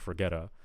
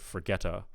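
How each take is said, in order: First: The T in forget is voiced. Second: The T in forget is not voiced. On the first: The speaker calls it wrong. "you're voicing the the T" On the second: The speaker calls it right. "instead of forgetta"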